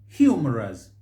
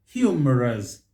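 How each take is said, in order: Both takes have the same delivery.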